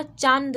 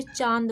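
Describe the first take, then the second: First: चांद wrongly said with a clear न before द; full N sound. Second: चांद with आ through the nose, no separate न; nasalised vowel. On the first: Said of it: "अनुस्वार की तरह चांद नहीं". (चांद में न् की साफ़ आवाज़) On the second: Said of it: "मतलब नाक का यूज़". (चांद का आ नाक से, न् के बिना) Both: Shown as a demonstration.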